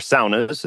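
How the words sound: It is said with a Finnish-style pronunciation.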